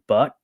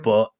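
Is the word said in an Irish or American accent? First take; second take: American; Irish. First: The vowel is said in an American way. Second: The vowel is said in an Irish way.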